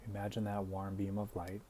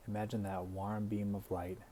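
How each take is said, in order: Both takes have the same delivery.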